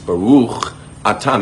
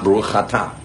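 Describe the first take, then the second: First: Atah starts cleanly, separate from the ch sound. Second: The ch sound runs into atah, like chatah. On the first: The speaker calls it right. "It begins with an aleph. It's baruch atah" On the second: The speaker calls it wrong. "not baruch atah. It's not chatah"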